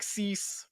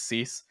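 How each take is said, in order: First: The vowel is placed very high. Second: The vowel is placed lower. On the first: The speaker calls it wrong. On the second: The speaker calls it right.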